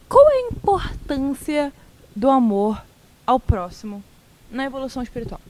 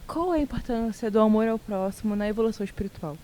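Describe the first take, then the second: First: The question is read with pauses between phrases. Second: The question is read smoothly without any pauses. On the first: "eu amo que você fala pausando" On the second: "E agora foi sem pausa"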